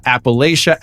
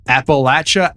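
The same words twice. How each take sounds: First: Long A and SH in the third syllable of "Appalachia"; Appalachia with LAY. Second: Short flat A and a CH in the third syllable of "Appalachia"; Appalachia with LATCH. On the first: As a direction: say "Appalachia" as app-uh-LAY-sha. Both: Shown as a demonstration. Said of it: "differing opinions on what the actual name".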